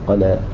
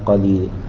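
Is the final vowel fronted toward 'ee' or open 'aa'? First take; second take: open; fronted. First: The final vowel is a fully open 'aa'. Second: The final vowel leans toward an 'ee' sound. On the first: This follows the Quraysh dialect with fatḥ. "لغته عليه الصلاة والسلام كان فيها فتح" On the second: This follows the Najdi dialect with imala. "حمزة يقرأ مثلا"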